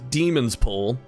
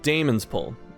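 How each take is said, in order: First: The first syllable sounds like 'dee'. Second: The first syllable sounds like 'day'. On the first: The speaker calls it right. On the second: The speaker calls it wrong.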